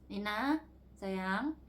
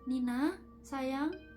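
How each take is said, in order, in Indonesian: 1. Suaranya lebih kasar dan kurang lembut. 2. Suaranya lembut dan halus. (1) "kayaknya gak selembut itu ya, kayak" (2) "gak selembut itu"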